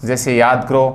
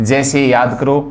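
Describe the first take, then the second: Both takes have the same delivery.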